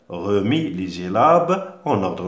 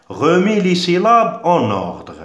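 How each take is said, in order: First: Said in the usual way. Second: Higher and louder, calling out the instruction; announcing the task. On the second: Shown as a demonstration. Teacher to pupils naming the seventh exercise, loud announcement. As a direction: announce it to the whole class. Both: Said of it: "septièmement".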